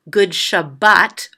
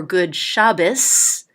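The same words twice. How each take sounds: First: "Shabbat" ending in a T, stress on the last syllable; T-ending pronunciation. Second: "Shabbos" ending in an S, stress on the first syllable. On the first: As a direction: say "Shabbat" as sha-BAHT, with a final T. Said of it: "some people say it as a T". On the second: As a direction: say "Shabbos" as SHAH-biss, with a final S. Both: Shown as a demonstration.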